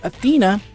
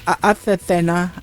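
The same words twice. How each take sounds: First: The name is said with English-style pronunciation. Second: The name is said with Japanese-style pronunciation.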